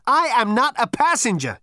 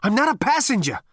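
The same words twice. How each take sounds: First: Much higher and louder shout. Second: Breathless, high, loud protest; out of breath and desperate; panting. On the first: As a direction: yell it in desperation. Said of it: "shouted Zaphod again". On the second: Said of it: "panted Zaphod". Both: A narrator's reading.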